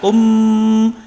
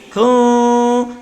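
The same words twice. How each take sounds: First: The lips close fully on the m sound. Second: The lips stay slightly apart on the m sound. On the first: The speaker calls it wrong. "kalau tidak disembunyikan bibir rapat" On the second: The speaker calls it right. "Tapi kita sembunyikan jadi kum"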